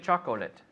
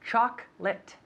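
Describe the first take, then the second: First: The word is said with three syllables. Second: The word is said with two syllables. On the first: The speaker calls it wrong. "We don't say chocolate" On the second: The speaker calls it right. "We say chocolate, chocolate, two syllables"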